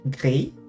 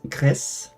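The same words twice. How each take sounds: First: The final S is silent. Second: The final S is clearly sounded. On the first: The speaker calls it wrong. "I've always pronounced this game gris" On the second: The speaker calls it right. "you're meant to pronounce the S"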